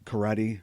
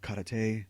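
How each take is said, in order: First: Karate is said with its everyday pronunciation. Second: Karate is said with the show's particular pronunciation.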